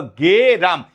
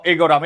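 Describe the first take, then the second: First: গে রাম with the e after g, "ge-ram"; slow, drawn-out গে, then রাম; correct reading গে রাম. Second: এগোরাম with a separate "e" sound before "goram"; wrong reading এগোরাম. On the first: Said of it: "না, এটা হলো গে রাম". ("গে রাম"-এ গ-এর পরে টানা এ) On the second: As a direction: put the e at the front of এগোরাম. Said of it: "এটা কি এগোরাম?". ("এগোরাম"-এ শুরুতে আলাদা "এ" উচ্চারণ) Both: Shown as a demonstration.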